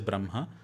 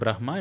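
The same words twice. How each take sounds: First: The h sound comes after the nasal. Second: The h sound comes before the nasal. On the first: The speaker calls it right. "it is ... you utter that nasal sound first and then expel the air" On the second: The speaker calls it wrong. "It's not"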